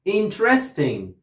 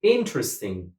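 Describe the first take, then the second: First: "Interesting" with stress moved off IN onto RES; misplaced stress. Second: "interesting" with IN stressed, the rest reduced; stress on first syllable. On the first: Student repeats after teacher wrongly, stress on RES in "Interesting". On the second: Teacher corrects the student, stress on IN in "interesting". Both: Shown as a demonstration. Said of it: "put the stress on the first syllable".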